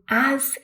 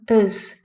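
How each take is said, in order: First: The word is said with a full vowel. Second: The word is said with a reduced vowel. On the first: "as is the strong form" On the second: "us is the weak form"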